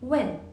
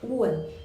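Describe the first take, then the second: First: It sounds like the English word 'when'. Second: It starts with a 'u' glide before 'en'. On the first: The speaker calls it wrong. "이 when은 영어식 발음이고" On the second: The speaker calls it right. "중국어 발음으로 얘기할 때는 우원"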